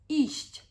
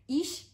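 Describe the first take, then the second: First: The word ends with a soft 'sht' sound. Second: The word ends with only a 'sh' sound. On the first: The speaker calls it right. "So the infinitive" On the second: The speaker calls it wrong. "kind of get rid of the chi sound and say ish, which is incorrect"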